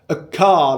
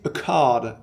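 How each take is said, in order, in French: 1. Il est prononcé avec un accent français. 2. Il est prononcé avec un accent anglais.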